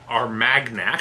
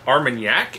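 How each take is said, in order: First: The word is said just as it looks spelled. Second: The word is not said as it looks spelled. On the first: The speaker calls it wrong. "It is not Armagnac" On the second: The speaker calls it right. "How's it pronounced?"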